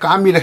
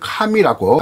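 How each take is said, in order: First: The first consonant is tense and unaspirated. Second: The first consonant is aspirated with a breath. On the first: This is the older way of writing the name. "종래에 까미를 했던 것을" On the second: This is the standard way under the revised rules. "카미라고 합니다"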